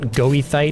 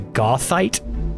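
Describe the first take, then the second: First: The first syllable sounds like go. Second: The first syllable sounds like goth. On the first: The speaker calls it wrong. "not goethite" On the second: The speaker calls it right. "the proper pronunciation of this is something more akin to gothite"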